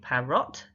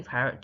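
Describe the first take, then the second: First: "parrot" as pa-ROT, full O in the second syllable; spelling pronunciation. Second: Said in the usual way. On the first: Shown as a demonstration. Teacher helping learners get the vowel, "parrot" said as "pa-rot". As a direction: say "parrot" with a clear "rot", no schwa. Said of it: "to help you with getting the correct vowel". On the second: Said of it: "do you think parrot".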